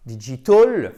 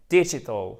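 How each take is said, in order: First: "digital" French-style, dee-jee-TOL, rising; loud mistaken "digital" weighted on the last syllable; mock learner error, "digital" with even ee vowels; wrong pronunciation. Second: "digital" as DIH-ji-tl with short i; English "digital", short i and weak ending; first-syllable stress. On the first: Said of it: "c'est pas digital". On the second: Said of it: "accent tonique en première position". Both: Shown as a demonstration.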